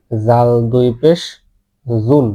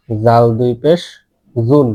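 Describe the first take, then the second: No difference in how they are said.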